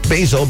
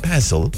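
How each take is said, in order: First: It is said with an American pronunciation. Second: It is said with a British pronunciation.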